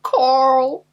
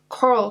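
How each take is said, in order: First: It is shouted like the Walking Dead character. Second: It is said in a plain, casual voice.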